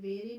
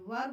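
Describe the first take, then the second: First: The word ends with a long ee vowel. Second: The word ends on the r, with no vowel. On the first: The speaker calls it wrong. "वेरी नहीं बोलेंगे" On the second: The speaker calls it right. "वर बोलेंगे इसको"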